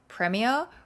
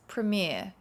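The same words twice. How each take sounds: First: It is said with a British English pronunciation. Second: It is said with an American English pronunciation. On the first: "which is the British English" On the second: "the American English is Premier"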